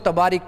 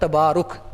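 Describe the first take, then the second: First: The final syllable has the vowel 'i'. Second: The final syllable has the vowel 'u'. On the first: The speaker calls it wrong. "ये लोग इसको तबारिक पढ़ते रहते हैं" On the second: The speaker calls it right. "ये लफ्ज़ है तबारुक"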